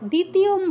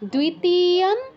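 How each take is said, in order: First: The word starts with a plain 'd' sound. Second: The word starts with a 'dw' sound. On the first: The speaker calls it wrong. "দ্বিতীয়ম বলবো না" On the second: The speaker calls it right. "দয়ের নিচে ও আছে"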